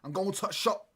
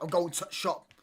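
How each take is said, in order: First: It is said in a Yorkshire accent, dropping 'the'. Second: It is said in a Yorkshire accent, dropping 'the'.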